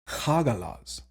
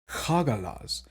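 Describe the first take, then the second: First: The middle consonant is a harsh fricative. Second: The middle consonant is a harsh fricative.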